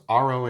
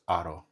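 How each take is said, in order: First: The word is said with English pronunciation. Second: The word is said with Spanish pronunciation. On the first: "it's aro in English" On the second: "but in Espanol it's aro"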